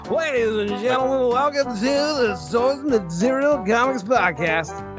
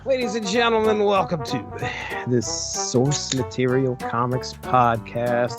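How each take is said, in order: First: It is read in an exaggerated DJ voice. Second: It is read in a sultry, sexy voice.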